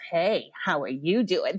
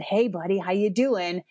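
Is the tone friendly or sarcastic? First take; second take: sarcastic; friendly. First: It is said in a sarcastic, mocking tone. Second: It is said in a friendly, warm tone.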